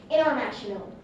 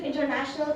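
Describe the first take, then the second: First: International with the T dropped, like "innernational"; American dropped T. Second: Said in the usual way. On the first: Shown as a demonstration. Student showing how Americans say it, international without its T. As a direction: let the N swallow the T in international. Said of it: "they do pronounce it international". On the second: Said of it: "very common in America that to pronounce".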